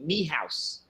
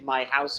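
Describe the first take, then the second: First: The first word sounds like 'me'. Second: The first word sounds like 'my'. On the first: This is the common Irish form. The speaker calls it wrong. "Ireland you'll say me house" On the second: This is the standard form. The speaker calls it right. "I say my house"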